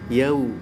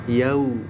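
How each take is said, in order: The two takes are said the same way.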